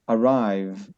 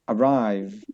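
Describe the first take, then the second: No difference in how they are said.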